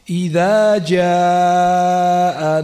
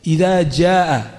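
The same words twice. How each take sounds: First: The vowel in jaa is drawn out long. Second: The vowel in jaa is kept short. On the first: It is recited as Quran. "itu panjang" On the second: It is read as a hadith, not Quran. "nggak perlu dipanjangkan"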